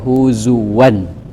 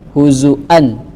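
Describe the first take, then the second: First: A w sound sits between the last two vowels. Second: A glottal stop sits between the last two vowels. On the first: "mengganti hamzah menjadi waw" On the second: "pakai hamzah"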